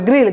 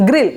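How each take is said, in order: First: "গ্রিল" with a long, stretched ee; drawn-out vowel. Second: "গ্রিল" short and quick, vowel not stretched; said quickly. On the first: Teacher showing learners what not to say, long-vowel "গ্রিল". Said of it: "গ্রিল বলবো না". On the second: Teacher modelling the right word for learners, quick short "গ্রিল". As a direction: say "গ্রিল" in one brief beat. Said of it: "খুব দ্রুত বলতে হবে". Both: Shown as a demonstration.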